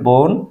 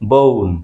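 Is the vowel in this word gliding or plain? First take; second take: plain; gliding. First: The vowel is one steady o sound. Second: The vowel glides from o toward u. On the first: "আমরা বলি বোন" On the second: "native স্পিকাররা উচ্চারণ করবে ও এর মতো বউন"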